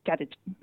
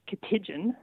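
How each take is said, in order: First: The stress falls on the first syllable. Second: The stress falls on a later syllable. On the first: The speaker calls it right. "with the emphasis on the first syllable" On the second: The speaker calls it wrong. "it's not, for instance, something like"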